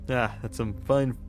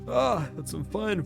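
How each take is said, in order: First: It is said in a plain, normal voice. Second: It is said in a put-on old man voice. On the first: The speaker calls it wrong. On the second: The speaker calls it right.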